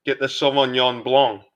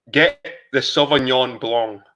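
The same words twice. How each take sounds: First: Said in the usual way. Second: "Get the Sauvignon Blanc" slow, each word weighted; slow emphatic. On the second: Acted. Streamer urging viewers which wine to buy, slow and emphatic. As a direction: drive home "Sauvignon Blanc" slowly.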